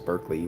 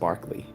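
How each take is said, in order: First: The first syllable sounds like 'burk'. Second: The first syllable sounds like 'bark'. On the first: This is how the California place name is said. The speaker calls it wrong. "which some people might mispronounce as Berkeley" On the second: This is how the philosopher's name was said. The speaker calls it right. "it was pronounced Barkley"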